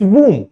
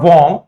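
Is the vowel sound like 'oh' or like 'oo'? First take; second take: oo; oh. First: The vowel sounds like 'oo'. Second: The vowel sounds like 'oh'. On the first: The speaker calls it right. "हल्का सा ऊ का pronunciation देता है" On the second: The speaker calls it wrong. "It's not"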